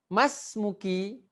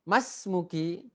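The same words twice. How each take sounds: First: Slow rising question, higher; slow model reading. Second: Said in the usual way. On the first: Shown as a demonstration. Teacher stretching "Mas muki" slowly so the class can copy. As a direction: drag it out and lift the end.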